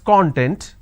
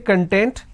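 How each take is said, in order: First: The stress is on the first syllable. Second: The stress is on the second syllable. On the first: It means an ingredient or index. "when we pronounce this as content, the meaning it means an ingredient or index" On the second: It means being happy. "when I say content, this means being happy"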